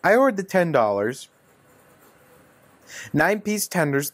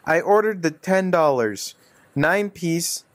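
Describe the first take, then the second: First: There is a longer pause after 'ten dollars'. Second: There is no clear pause after 'ten dollars'.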